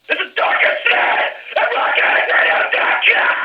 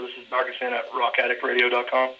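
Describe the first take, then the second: First: It is screamed loudly. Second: It is said in a normal speaking voice.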